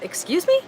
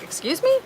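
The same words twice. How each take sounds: First: Shocked, rising "Excuse me?" from the office lady; clipped disbelief on "Excuse me?", up at the end; indignant excuse me. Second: Much higher, stunned "Excuse me?" rising sharply; outraged excuse me. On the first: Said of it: "the office window said". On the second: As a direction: toss "Excuse me?" up high in disbelief. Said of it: "I was like". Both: Retold or imitated.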